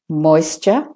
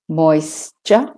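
Both takes have the same delivery.

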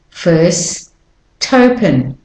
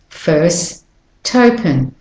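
No difference in how they are said.

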